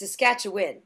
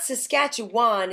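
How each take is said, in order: First: It is pronounced the way locals say it. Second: It is pronounced the way outsiders say it. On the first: The speaker sounds like a native. The speaker calls it right. "it's Saskatchewan" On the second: The speaker is not from the region. The speaker calls it wrong. "it's not Saskatchewan"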